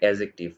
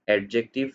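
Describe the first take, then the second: First: No d sound is heard before the j. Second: A d sound is heard before the j. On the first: The speaker calls it right. "এটা উচ্চারণ হবে অ্যাজেক্টিভ" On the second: The speaker calls it wrong. "এই উচ্চারণটা ভালো না"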